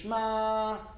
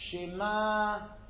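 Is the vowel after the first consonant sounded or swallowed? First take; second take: swallowed; sounded. First: The vowel after the first consonant is dropped. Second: The vowel after the first consonant is sounded. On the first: The speaker calls it wrong. "people who say Shema, that's wrong" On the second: The speaker calls it right. "It's Shema"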